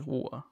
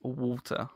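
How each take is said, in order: First: "water" with a glottal stop for the T; dropped T. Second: "water" with a clearly sounded T; pronounced T. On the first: Showing own London habit, "water" with T dropped. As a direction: drop the T in "water", wa'er. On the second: Showing how others say it, "water" with full T. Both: Shown as a demonstration. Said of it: "I can't pronounce T's".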